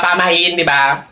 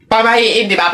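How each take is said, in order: First: "Pamahiin, di ba?" said again lower and heavier; lower, pointed repeat. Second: Said in the usual way. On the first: Acted. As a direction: drop the voice to drive home "Pamahiin". (mas mababang ulit ng "Pamahiin, di ba?") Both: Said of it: "repeated lower".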